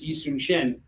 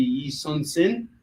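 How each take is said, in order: First: "Yi Sun Shin" with SH starting the last name; "Yi Sun Shin", regional form ending in "shin"; regional SH variant. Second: "Yi Sun Sin" with a plain S starting the last name; "Yi Sun Sin", regional form ending in "sin"; regional S variant. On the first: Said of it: "you go into a different part". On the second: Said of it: "what area of Korea you're in". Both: Shown as a demonstration.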